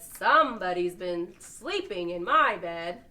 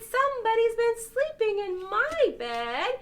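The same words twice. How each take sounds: First: It is said in the big papa bear's voice. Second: It is said in the itty bitty bear's voice.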